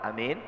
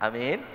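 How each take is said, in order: The two takes are said the same way.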